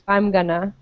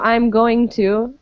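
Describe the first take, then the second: First: The words run together into a shortened form. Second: Every word is pronounced separately and fully.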